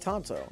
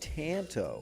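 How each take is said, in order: First: The first vowel is a soft, open 'ah' sound. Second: The first vowel is a hard, flat 'a' sound. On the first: The speaker calls it right. "I say Tonto" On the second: The speaker calls it wrong. "Hard A just doesn't sound as good"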